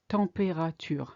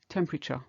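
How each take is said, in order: First: The word is said with four syllables. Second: The word is said with three syllables. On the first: "you still hear four syllables" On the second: "In English, you can only hear three"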